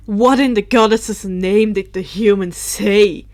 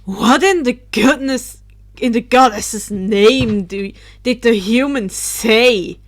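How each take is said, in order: First: Loud, steady retake of the outburst; exclaimed. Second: Loud startled outburst; exclaimed. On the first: Drake loudly demands what the human said. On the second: Drake bursts out loudly as he hovers down. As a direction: demand it loudly from above. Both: Acted. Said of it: "Drake exclaimed".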